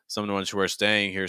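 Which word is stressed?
staying. The word staying carries the main stress. "so you're stressing staying"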